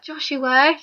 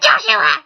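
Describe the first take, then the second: First: Whisper-shout. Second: Higher, louder call of Joshua!. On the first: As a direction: hiss "Joshua," as a hushed shout. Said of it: "whispered but shouted". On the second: Mum calling her son down, a loud call. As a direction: shout "Joshua!" up the stairs. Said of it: "Lisa screamed down". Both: Retold or imitated.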